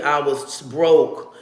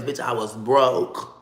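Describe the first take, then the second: First: Each word drawn out even slower, broke falling; very slow emphasis. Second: Drawn out slowly, leaning on broke; emphatic. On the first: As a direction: hammer home being broke. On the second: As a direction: stretch it out, no money at all. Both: Real, not acted.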